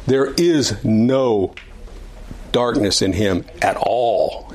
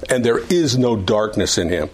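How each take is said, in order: First: Slow down and weigh each word of There is no; emphatic. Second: Said in the usual way. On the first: Shown as a demonstration. Teacher restating the verse to the class, slow and emphatic. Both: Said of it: "He's emphatic about that".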